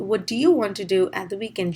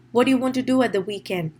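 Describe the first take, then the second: First: "What do you" with "do" sounded separately; each word distinct in "what do you want"; full "do". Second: Quick "What do you", with "do" nearly swallowed; brisk question, feeble "do" before "you"; weak "do". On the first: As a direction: give the first "do" its full vowel. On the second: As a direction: reduce the first "do" to almost nothing. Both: Shown as a demonstration. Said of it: "do is what we make it feeble".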